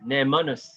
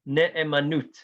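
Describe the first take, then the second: First: It is said in Ashkenazi Hebrew, ending in s. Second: It is said in Modern Hebrew, ending in t.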